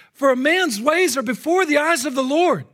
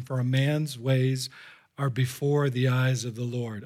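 First: Loud, high preached verse; ringing pulpit declaration; impassioned scripture proclamation. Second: Low, measured scripture reading; subdued, slow verse of warning; solemn warning. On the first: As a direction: proclaim the verse urgently to the whole room. Same verse preached at full force. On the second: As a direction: read it gravely, unhurried. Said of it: "one final solemn Solomonic warning". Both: Real, not acted.

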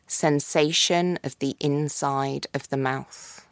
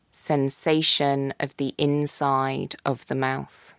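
Both takes have the same delivery.

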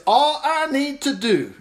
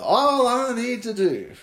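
First: "All I need to do" said slowly and higher, with "All" leaned on; stress on All. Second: "All I need to do" drawn out, stress landing on "All". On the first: Preacher stops on the verse to stress "All". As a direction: pull out the word "All". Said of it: "this is where we blow it right here". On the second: Preacher repeats the verse to stress "All". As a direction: lean on "All" like a pointed tip. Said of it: "do you think David was trying to give us a tip here". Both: Shown as a demonstration.

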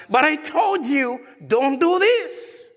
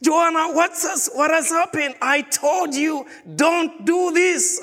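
First: Exasperated father shout. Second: Stern father scolding. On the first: Father repeats his warning to crying Joanna, shouting. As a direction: raise it into a frustrated shout at the child. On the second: A father scolds his crying daughter Joanna, high and stern. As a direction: make each word land like a father's warning. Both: Retold or imitated.

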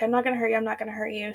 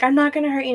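First: Dropping to a near hush; soothing, fading repetition; mild mock calming murmur; quieter repeat. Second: Said in the usual way. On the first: Boyfriend repeats it, backing off.

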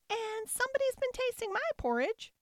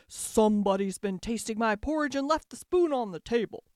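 First: Tiny, very high squeal; squealing baby bear. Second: Loud, big bear voice; growling father bear. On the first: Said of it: "squealed the baby bear". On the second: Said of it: "growled the father bear in his great big voice". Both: A narrator's reading.

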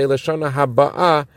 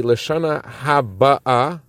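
First: "Haba'ah" stressed on its final syllable; stress on second syllable. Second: "Haba'ah" stressed on its first syllable, drawn out slowly. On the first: Teaching the Hebrew grammar of the second phrase, late stress on "Haba'ah". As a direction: push the weight onto the closing AH of "Haba'ah". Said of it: "emphasis on the second syllable". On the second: Teaching the Hebrew grammar of the first clause, early stress on "Haba'ah". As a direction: lean on the BA in "Haba'ah", stretching it. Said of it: "emphasis on the first syllable". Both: Shown as a demonstration.

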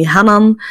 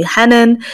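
First: Hanan with open, back a vowels; everyone else's pronunciation. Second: Hanan with fronted vowels, like HEN-en; family's pronunciation. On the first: Host showing what everyone else calls her, open-vowel "Hanan". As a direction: say "Hanan" as ha-nan, with open a's. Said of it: "everyone else calling me". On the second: Host showing what family calls her, fronted "Hanan". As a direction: say "Hanan" the Arabic way, a's near e. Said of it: "my family calling me". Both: Shown as a demonstration.

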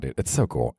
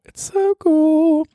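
First: Said in the usual way. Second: Much higher, slow, louder gushing; hammed-up high excitement; giddy squeal. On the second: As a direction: squeal it like a thrilled kid.

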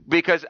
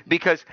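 The two takes are said the same way.

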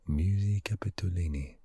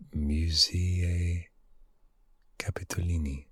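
First: Smoother second go at the Italian name; Italian accent attempt. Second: Italian accent attempt. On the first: Retrying the museum name in a light Italian accent. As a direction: say it like an Italian would. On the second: Trying the Italian name in a hushed, unsure Italian accent. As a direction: sound out the Italian name carefully. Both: Shown as a demonstration. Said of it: "My Italian accent isn't that good".

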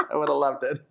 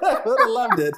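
First: Said in the usual way. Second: Laughing. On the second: Real, not acted. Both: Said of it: "repeated line".

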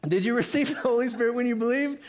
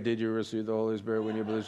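First: High, rising question; animated high-pitched asking; exaggerated questioning read. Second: Low, quick, toneless run-through; mock hurried reading, dropped in pitch and softer; imitating a casual read. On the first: Shown as a demonstration. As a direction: lift the whole question up high. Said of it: "So some of you just read it like". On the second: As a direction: rattle it off low and fast. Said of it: "some of you just read it like".

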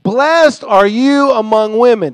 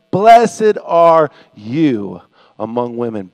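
First: High, loud, slow proclamation; loud exclamation. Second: Slow, low, loud blessing; deep-pitched, drawn-out exclamation; loud proclamation. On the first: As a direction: exclaim the blessing at full voice. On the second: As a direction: proclaim it weightily, dropping away at the end. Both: Acted. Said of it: "In a loud voice, she exclaimed".

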